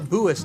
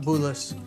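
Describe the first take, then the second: First: The name is said without an L sound. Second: The name is said with an L sound. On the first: The speaker calls it right. "it's said Buis" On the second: The speaker calls it wrong. "not Bulis"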